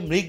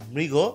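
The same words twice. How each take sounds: First: The word ends on the consonant, no final vowel. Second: The word ends with an added 'o' vowel sound. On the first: The speaker calls it wrong. "এটা অনেকে মৃগ বলে, একদমই না" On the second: The speaker calls it right. "এটা হচ্ছে মৃগ ... গো ওকার"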